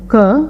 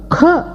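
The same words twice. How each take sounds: First: Said in the usual way. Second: க as "kha", higher, with a puff of air; aspirated k. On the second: Shown as a demonstration. Teacher contrasting four sounds, க as aspirated "kha". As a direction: push breath out after the k in க. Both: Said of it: "க என்ற நான்கு உச்சரிப்புகளை".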